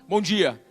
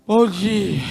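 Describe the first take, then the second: First: It is said in a firm, determined way. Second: It is said in a sleepy, lazy way.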